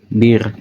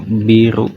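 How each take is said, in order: First: The word ends on a bare consonant sound. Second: The word ends with an added vowel sound. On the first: "nulis bir" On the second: "mereka ngucapinnya biru"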